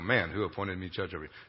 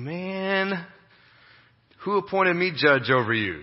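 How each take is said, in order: First: It is said in a plain, solemn tone. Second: It is said in an exasperated, casual tone.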